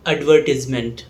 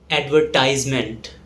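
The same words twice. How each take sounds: First: Advertisement said ad-VER-tiz-ment; British pronunciation. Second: Advertisement said ad-ver-TIZE-ment; American pronunciation. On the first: Teacher showing British English advertisement, ad-VER-tiz-ment. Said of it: "In British English". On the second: Teacher showing American English advertisement, ad-ver-TIZE-ment. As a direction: say advertisement with a long eye in tise. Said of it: "whereas in American English". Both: Shown as a demonstration.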